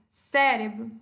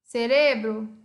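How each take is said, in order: First: It is said with Portuguese word stress. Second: It is said with Spanish word stress.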